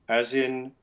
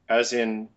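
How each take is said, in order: No difference in how they are said.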